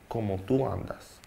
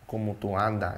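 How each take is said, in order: First: The final s of the last word is pronounced. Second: The final s of the last word is dropped.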